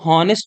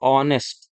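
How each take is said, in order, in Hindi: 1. शब्द की शुरुआत साफ़ सुनाई देने वाली 'h' ध्वनि से होती है। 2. शब्द सीधे स्वर ध्वनि से शुरू होता है। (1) "इसको हॉनेस्ट नहीं पढ़ते हैं" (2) "इसको पढ़ा जाता है ऑनेस्ट"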